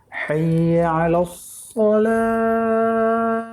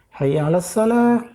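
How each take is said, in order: First: The s in the last word is deep and emphatic. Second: The s in the last word is plain and light. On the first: The speaker calls it right. "tapi sad, huruf sad" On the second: The speaker calls it wrong. "jangan sa, jangan sin"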